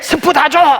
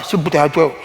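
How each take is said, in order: First: It is said loudly and forcefully. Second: It is said weakly and quietly.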